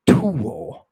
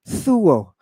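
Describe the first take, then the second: First: It begins with a t plus breath. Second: It begins with a breathy th sound.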